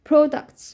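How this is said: British accent with a rounded 'o' first vowel.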